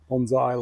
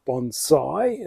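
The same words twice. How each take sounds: First: "bonsai" with a buzzing Z, bon-zai; lazy Aussie "bonsai" with a Z sound. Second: "bonsai" with a crisp S, bon-sai; careful "bonsai" with a clean S sound; correct bonsai. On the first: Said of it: "like Aussie". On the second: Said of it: "as the correct saying". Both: Shown as a demonstration.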